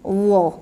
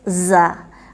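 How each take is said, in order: First: The consonant sounds thick, with rounded sour mouth. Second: The consonant sounds thin and whistling. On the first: The speaker calls it right. "masamkan dulu baru sebut dha" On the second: The speaker calls it wrong. "Tak boleh za"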